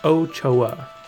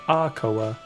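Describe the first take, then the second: First: The name begins with an 'oh' sound. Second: The name begins with an 'ah' sound. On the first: The speaker calls it right. "Ochoa is how you would pronounce that" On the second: The speaker calls it wrong. "A lot of like telemarketers would get that wrong and be like"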